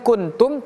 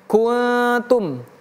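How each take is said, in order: First: The n is pronounced clearly and fully. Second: The n is hidden in a nasal hum. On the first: The speaker calls it wrong. "bukan kuntum" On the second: The speaker calls it right. "tapi kuntum"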